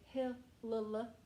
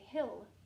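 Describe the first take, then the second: First: The L sound is said twice. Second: The L sound is said once. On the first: The speaker calls it wrong. "You don't say" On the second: The speaker calls it right. "you say"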